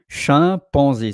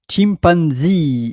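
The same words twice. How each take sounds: First: The word is pronounced the French way. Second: The word is pronounced the English way. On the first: "but chimpanzee" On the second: "chimpanzee in English"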